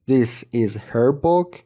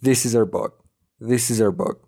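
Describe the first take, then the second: First: Slow "This is her book" with h sounded in "her"; careful full form. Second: "her" without h, linked to "is"; fast casual form. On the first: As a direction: separate each word, keep the h in "her". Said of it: "این که بخواد تو عامیانه تلفظ بشه". («her» شمرده و با H کامل) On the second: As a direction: say "is her" quickly as "izzer". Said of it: "سریع بخوایم بگیمش". («is her» سریع و بدون H) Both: Shown as a demonstration.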